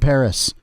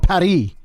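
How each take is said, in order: First: It is said with an English accent. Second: It is said with a French accent.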